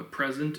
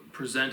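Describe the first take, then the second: First: "present" as PREZ-ent; noun stress. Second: "present" as pre-ZENT; verb stress. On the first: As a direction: stress the first syllable of "present". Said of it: "A present is a gift". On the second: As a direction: stress the second syllable of "present". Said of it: "present is a verb". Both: Shown as a demonstration.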